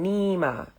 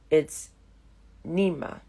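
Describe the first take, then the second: First: The name is drawn out in a whining way. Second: The name has a throaty growling sound inside. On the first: This is how others mispronounce the name. The speaker calls it wrong. "stretched like a whining Nima" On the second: This is the true form of the name. The speaker calls it right. "really, it's Nima"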